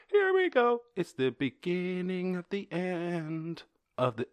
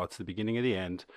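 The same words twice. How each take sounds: First: High, drawn-out mock singing; hammed-up singing. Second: Said in the usual way. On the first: Host introducing the next story, mock singing. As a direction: sing it slowly, high and theatrical.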